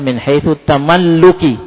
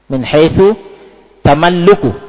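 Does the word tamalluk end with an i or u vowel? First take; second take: i; u. First: The last word ends with an i vowel. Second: The last word ends with a u vowel. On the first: The word is directly the second term of a genitive construction. "tamalluki langsung sebagai mudhaf ilaih" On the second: The word follows an omitted subject in a nominal clause. "Kenapa ana dhammah"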